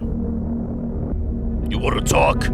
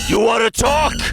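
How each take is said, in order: First: It is said in a deep, gravelly put-on voice. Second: It is said in a normal speaking voice.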